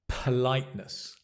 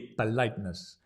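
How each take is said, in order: First: The P is released with a strong puff of air. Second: The P is soft, close to a B sound. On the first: The speaker calls it right. "can you see that it moves?" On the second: The speaker calls it wrong. "In many languages, it would be politeness"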